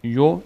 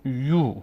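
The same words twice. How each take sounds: First: یو as short "yo"; short vowel. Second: یو as long "yuu"; long vowel. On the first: Teacher says ya on its own, short "yo". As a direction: say یو with a brief o. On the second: Teacher adds vav to ya, long "yuu". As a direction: draw یو out with oo. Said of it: "این هم از صدای کشیدهٔ". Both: Shown as a demonstration.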